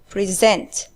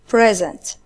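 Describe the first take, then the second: First: The stress is on the second syllable. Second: The stress is on the first syllable. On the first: It is a verb meaning to offer or give. "the stress is on the second syllable" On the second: It is a noun meaning a gift. "the stress is on the first syllable"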